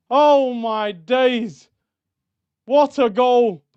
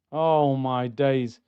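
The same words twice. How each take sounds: First: Drawn-out awed "Oh" then a loud "What"; overwhelmed fan still buzzing; stunned delight. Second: Fed up with a shambles of a game; weary dismay. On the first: Reacting to the winning goal. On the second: Sighing over poor performance. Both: Real, not acted.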